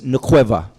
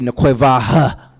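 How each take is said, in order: First: The word ends on the vowel, without h. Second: The word ends with an audible h sound. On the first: The speaker calls it right. "It's just nqueva" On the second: The speaker calls it wrong. "But you're not going to say nqueva"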